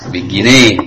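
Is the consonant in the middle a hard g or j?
hard g. The middle consonant is a hard g sound. This is the colloquial spoken form. "kalau amiyahnya bukan junai, gini"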